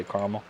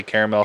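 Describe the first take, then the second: First: Caramel said as CAR-muhl; regional pronunciation. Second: Caramel said as CARE-uh-mel; regional pronunciation. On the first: Reviewer guessing it's coastal, caramel as CAR-muhl. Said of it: "some people say caramel". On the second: Reviewer guessing it's coastal, caramel as CARE-uh-mel. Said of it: "Some people say caramel". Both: Shown as a demonstration.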